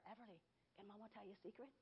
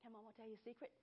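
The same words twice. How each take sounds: First: Put-on soft, fast hushed question to a baby; secret to baby. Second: Put-on softer hushed question to a baby; secret to baby. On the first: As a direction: lean in and coo it softly. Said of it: "I would tell her". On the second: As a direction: ask it gently like a secret. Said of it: "every time I say".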